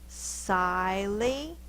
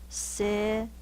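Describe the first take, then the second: First: The first vowel is long, like 'eye'. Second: The first vowel is short, like 'ih'. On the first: The speaker calls it wrong. "the vowel can go a long way, which means it say its name" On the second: The speaker calls it right. "The vowel is short"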